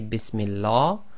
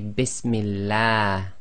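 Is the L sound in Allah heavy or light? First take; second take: heavy; light. First: The L is heavy, with a full mouth. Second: The L is light, with a thin sound. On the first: The speaker calls it wrong. "You cannot say Bismillah" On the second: The speaker calls it right. "you must say Bismillah ... go tarqiq, that is light"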